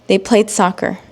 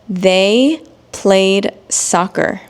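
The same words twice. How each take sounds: First: It is spoken at a normal pace. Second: It is spoken slowly and carefully. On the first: "then I will read it in normal speed" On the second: "read these examples in slow English"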